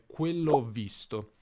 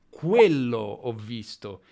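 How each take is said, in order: First: It is said plainly, without contrastive emphasis. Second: It is said with contrastive emphasis on quello. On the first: The speaker calls it wrong. "non posso dire quello ho visto" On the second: The speaker calls it right. "con un'intonazione specifica"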